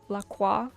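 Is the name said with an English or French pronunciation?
French. The name is said with a French pronunciation. This is the name's original pronunciation. "instead of La Croix"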